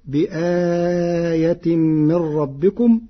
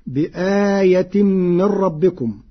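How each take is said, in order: First: بآية with a middle-length stretched vowel after the hamza, very slow; Warsh reading. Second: بآية with a short vowel after the hamza, slow; standard reading. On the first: Teacher demonstrating Warsh's medium lengthening in بآية, very slow. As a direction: chant بآية من ربكم drawn out, bi-aaaya. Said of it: "فتكون هكذا". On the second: Teacher quoting the verse before Warsh's lengthening. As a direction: recite بآية من ربكم slowly, plain length. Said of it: "قرأ ورش كلمة بآية". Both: Shown as a demonstration.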